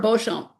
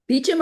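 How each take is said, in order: First: The name begins with a 'bo' sound. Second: The name begins with a 'bee' sound. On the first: "Beecham or Beauchamp?" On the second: "Beecham or Beauchamp?"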